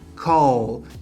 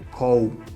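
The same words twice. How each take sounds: First: The word ends with a clear L sound. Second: The word ends with a U-like vowel sound. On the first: The speaker calls it right. "que é com L também" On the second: The speaker calls it wrong. "o pessoal fala call"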